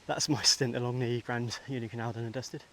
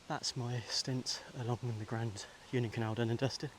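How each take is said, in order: First: It is said at normal speed. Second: It is said very slowly.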